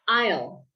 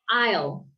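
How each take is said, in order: Both takes have the same delivery.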